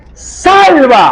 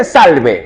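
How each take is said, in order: First: Salva cried out high and loud, stretched; desperate cry. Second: Said in the usual way. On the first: Shown as a demonstration. Preacher correcting the word to her cry, high loud plea. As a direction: shout Salva as a plea for rescue. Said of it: "no, le dice". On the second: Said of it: "No le dice".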